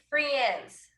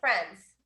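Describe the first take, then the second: First: The letter i is voiced as a vowel. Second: The letter i is silent, only eh heard. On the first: The speaker calls it wrong. "no decimos friends" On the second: The speaker calls it right. "la I es imaginaria, entonces quedaría friends"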